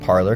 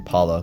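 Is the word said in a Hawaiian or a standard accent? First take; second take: standard; Hawaiian. First: It is said with a standard pronunciation. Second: It is said with a Hawaiian accent. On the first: "I think that's the correct pronunciation" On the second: "I always say Pala because I'm from Hawaii"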